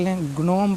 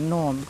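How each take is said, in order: First: The word starts with a hard g sound. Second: The word starts with an n sound. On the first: The speaker calls it wrong. "ग्नोम पढ़ते हैं इसको" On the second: The speaker calls it right. "इसको नोम पढ़ना है"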